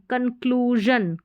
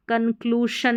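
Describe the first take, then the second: First: कंक्लूजन slowly, ending in voiced zhun. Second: कंक्लूशन ending in unvoiced shun; hushing sh in कंक्लूशन; wrong sh in कंक्लूशन. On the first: Teacher modelling the right reading, कंक्लूजन with zh. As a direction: stretch kloo, buzz zh in कंक्लूजन. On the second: Teacher showing what not to say, कंक्लूशन with sh. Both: Shown as a demonstration. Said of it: "कंक्लूशन नहीं बोलेंगे".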